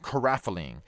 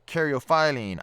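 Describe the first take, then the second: First: The word is said in a shorter, contracted form. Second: The word is said in a longer, fuller form. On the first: Other people have said it this way. "had it said to me called uh, caraphyllene" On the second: This is the pronunciation the speaker prefers. "I prefer to say caryophyllene"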